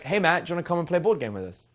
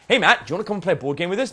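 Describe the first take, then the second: First: It is said in a flat, relaxed everyday tone. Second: It is said in a lively, energetic, engaged tone.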